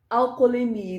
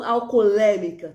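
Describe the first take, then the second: First: "Alcoolemia" stressed on MI; al-co-o-le-MI-a, weight near the end of "Alcoolemia"; correct stress. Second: "alcoolêmica" hit loudly on LÊ; al-co-o-LÊ-mi-ca, loud stress on LÊ in "alcoolêmica"; wrong stress. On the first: Teacher giving the right form, penultimate stress on "Alcoolemia". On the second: Teacher showing the error, loud stress on LÊ in "alcoolêmica". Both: Shown as a demonstration. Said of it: "tá errado".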